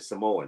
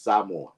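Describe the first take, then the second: First: The A sound is not accentuated. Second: The A sound is clearly accentuated. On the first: This is how outsiders say it. The speaker calls it wrong. "so we say it wrong. We say Samoan" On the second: This is how the people themselves say it. The speaker calls it right. "They they accentuate the A"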